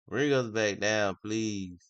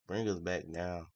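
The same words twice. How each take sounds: First: Loud, pleading with the market; insistent plea. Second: Said in the usual way. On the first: Real, not acted. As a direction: repeat the request louder, urging it on. Louder repeated plea to the market.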